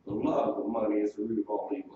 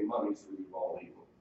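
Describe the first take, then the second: First: LOVE lifted, the rest low and even; stress on love. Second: Said in the usual way. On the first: Shown as a demonstration. Preacher correcting a misquote for the congregation, stress on "love". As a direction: lean on "love" as the key word.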